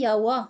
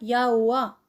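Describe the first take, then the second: First: Two beats, contracted, with a clearer W. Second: Three beats, leaning on the middle O. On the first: "si on le prononce en deux temps" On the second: "si on appuie sur le O au milieu"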